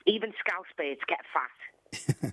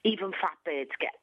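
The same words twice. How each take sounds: First: Even Scouse Birds Get Fat said slow and deliberate, each word weighted; title said slowly. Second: Said in the usual way. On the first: Shown as a demonstration. Naming her book title to the host, slow and weighted. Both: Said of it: "what's it gonna be called".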